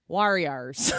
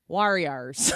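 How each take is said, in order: First: It is said in a St. Louis accent. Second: It is said in a St. Louis accent.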